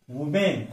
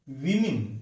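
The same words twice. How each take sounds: First: वुमेन as woo-MEN; u vowel first, full "men" in वुमेन; wrong pronunciation. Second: विमेन as WIM-in; short i in both syllables of विमेन; careful, lower model of विमेन; correct pronunciation. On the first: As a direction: mistaken वुमेन. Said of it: "ऐसा गलत उच्चार". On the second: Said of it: "इसका सही उच्चारण". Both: Shown as a demonstration.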